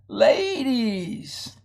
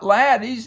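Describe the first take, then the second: First: The first vowel is long. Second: The first vowel is short. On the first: The speaker calls it right. "the vowel's going to be long" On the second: The speaker calls it wrong. "it's not laddies"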